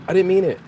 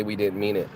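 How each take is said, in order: First: Higher and louder, a put-on childish denial; sing-song childish protest; mock whiny kid excuse. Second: Said in the usual way. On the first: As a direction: play the kid who swears it was an accident. Mocking a kid's excuse.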